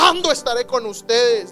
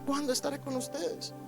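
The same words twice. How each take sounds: First: It is shouted in an angry tone. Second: It is said in a let-down, disappointed tone. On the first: The speaker is furious with the listeners. The speaker calls it wrong. "Uno cree que Jesús está gritando" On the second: The speaker is saddened by the listeners. The speaker calls it right. "era desilusionado diciendo"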